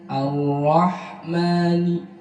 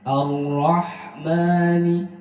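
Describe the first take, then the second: The two takes are said the same way.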